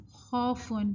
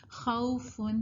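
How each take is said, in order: First: خوفن with one plain "aw" vowel, khawfon; Urdu-style reading. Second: خوفن with a gentle "au" glide, khau-fun; soft leen. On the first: Teacher showing students the Urdu reading, flattened vowel. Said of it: "Urdu میں اگر ہم اس کو پڑھیں". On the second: Teacher showing the easy leen reading, soft glide. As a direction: ease from a to u in خوفن, softly. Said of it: "نرمی سے اور easily پڑھے جاتے ہیں". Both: Shown as a demonstration.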